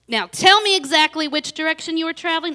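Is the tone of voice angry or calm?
angry. It is spoken in an angry, agitated tone. The speaker calls it wrong.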